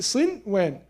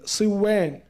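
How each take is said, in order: First: The noon sound is pronounced clearly and separately. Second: The noon is merged into the following sound. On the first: The speaker calls it right. "We say صنوان" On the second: The speaker calls it wrong. "We don't say صوان"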